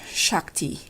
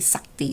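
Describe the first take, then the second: First: The word begins with an sh sound. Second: The word begins with a plain s sound. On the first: This is how others pronounce it. "you pronounce it Shakti" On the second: This is how Indonesians pronounce it. "we say Sakti, so we just lost the sh"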